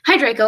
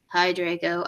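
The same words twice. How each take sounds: First: It is said in a plain, neutral tone. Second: It is said in a depressed, gloomy tone.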